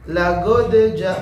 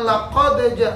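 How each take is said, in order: First: The middle consonant is a hard 'g' sound. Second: The middle consonant is a deep 'q' sound. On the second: "bukan laqadeja"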